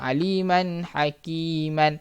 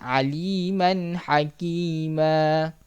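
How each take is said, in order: First: The last word ends with an 'an' sound. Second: The last word ends on a plain a vowel. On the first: The speaker calls it wrong. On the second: The speaker calls it right.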